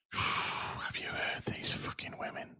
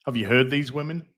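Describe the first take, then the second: First: Sigh, then whisper it in mock disbelief; hushed, voiceless aside. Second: Said in the usual way. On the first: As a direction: breath-only whisper after a sigh. Repeats the line in a whisper.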